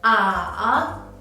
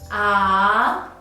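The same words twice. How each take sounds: First: The syllable is said with the third tone. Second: The syllable is said with the second tone. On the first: "And the third tone" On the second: "And the second tone"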